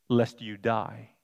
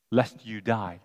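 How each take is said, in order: First: "lest you die" read slowly, lest weighted; plain slow reading. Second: "Lest" pressed, phrase falling; stress on Lest. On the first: Preacher reading Eve's reply, slow and weighted. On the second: Preacher highlighting Eve's softening, stress on Lest. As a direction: point at "Lest" as the softened word. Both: Shown as a demonstration. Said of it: "Notice how she said".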